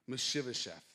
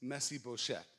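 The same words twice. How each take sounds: First: The name is pronounced the English way. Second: The name is pronounced the Hebrew way. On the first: "That's how you say it in English" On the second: "In Hebrew, the way you say it is"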